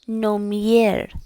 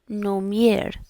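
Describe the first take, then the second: The two takes are said the same way.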